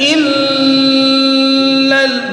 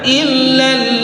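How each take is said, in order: First: The double L is held with a nasal hum. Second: The double L is stressed without a nasal hum. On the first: The speaker calls it wrong. "tidak illal, enggak bisa" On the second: The speaker calls it right. "Tapi dia tidak dengung, hanya ada penekanan"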